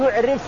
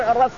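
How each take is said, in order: First: The r is followed by another vowel. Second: The r is followed by an a vowel. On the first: The blood has a foul smell. "أو تقول يعرف يعني له ريحة منتنة" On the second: The blood is recognizable and distinct. "بفتح الراء"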